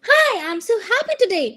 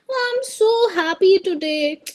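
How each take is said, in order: First: It sounds cheerful and happy. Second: It sounds flat and unhappy.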